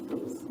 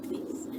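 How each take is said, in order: Both takes have the same delivery.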